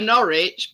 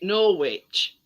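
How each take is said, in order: First: It is pronounced the British way. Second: It is pronounced the American way. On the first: "We've got an, a Norwich" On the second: "people in America pronounce it Norwich"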